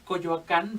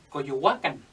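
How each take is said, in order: First: It is said in the modern Spanish way. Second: It is said in the original Nahuatl way. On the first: This is how the name is said today. The speaker calls it wrong. "En lugar de decir Coyoacán" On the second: This is how the name was said originally. The speaker calls it right. "deberíamos decir Coyohuacán"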